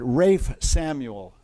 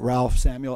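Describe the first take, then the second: First: The first name sounds like Rafe, without an L. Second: The first name sounds like Ralph, with an L. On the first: This is how the English say the name. "They pronounce it Rafe Samuel" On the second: This follows how the name is spelled. "it was actually spelled Ralph"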